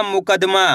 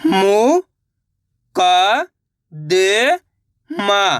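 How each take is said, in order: First: Said in the usual way. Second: मुकदमा very slowly as मु, क, द, मा; syllable by syllable. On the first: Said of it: "तो मिलके बन जाएगा". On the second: Shown as a demonstration. Teacher sounding out मुकदमा for learners, syllable by syllable. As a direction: stretch each syllable of मुकदमा, pausing between, pitch rising. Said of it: "एक एक अक्षर का उच्चारण करके इनको पढ़ रहा हूँ".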